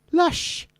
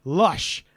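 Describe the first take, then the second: First: Put-on high-pitched Welsh girl voice; Welsh girl accent. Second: Said in the usual way. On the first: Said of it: "as a Welsh girl would say". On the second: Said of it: "Or as a Welsh girl would say".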